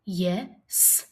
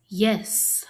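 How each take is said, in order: First: "Yes" split into "ye", then a separate "sss"; sounded out. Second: Said in the usual way. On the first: Shown as a demonstration. Teacher asking pupils to listen, Yes split as ye, s. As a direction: pause before the final S of "Yes".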